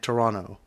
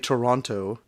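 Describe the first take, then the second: First: The second T sound is dropped. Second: The second T sound is clearly pronounced. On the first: This is how locals say it. "They don't pronounce that T" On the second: This is how people from outside Canada say it. "non Canadians say Toronto"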